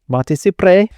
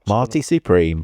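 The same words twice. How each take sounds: First: It is said in a put-on Spanish accent. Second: It is said in the speaker's plain accent.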